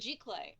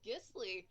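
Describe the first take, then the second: First: The word ends with a 'clay' sound. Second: The word ends with a 'slee' sound. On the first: The speaker calls it right. "Then yes, I'm pronouncing it totally wrong" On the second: The speaker calls it wrong. "I always pronounce it Gisli"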